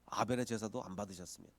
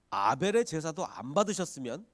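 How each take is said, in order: First: 아벨의 stressed, the line dropping lower and softer; a softer, falling echo of 아벨의; falling repeat. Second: 아벨의 lifted, the line rising into a question; hypothetical posed with a rising 아벨의; questioning rise. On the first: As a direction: repeat it quietly as a settled point with 아벨의 leading. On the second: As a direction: pose it as an open question on 아벨의. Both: Shown as a demonstration. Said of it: "이렇게 화가 났을까요?".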